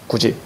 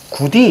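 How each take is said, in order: First: The second syllable starts with a j sound. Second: The second syllable starts with a d sound. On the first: The speaker calls it right. "이게 정확한 규정이야" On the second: The speaker calls it wrong. "이렇게 발음하면 안 되는 거지?"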